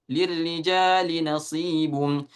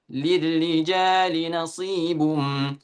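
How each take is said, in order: No difference in how they are said.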